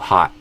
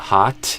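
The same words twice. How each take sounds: First: The final T is cut off abruptly. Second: The final T is fully released. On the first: "or just suddenly stopping the sound at the end" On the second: "instead of a hot"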